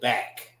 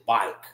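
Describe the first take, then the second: First: The word has the usual pronunciation of back. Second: The vowel sounds close to the one in bike. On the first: This is how other places say it. "we don't say back" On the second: This is how the speaker's own community says it. "we say bike"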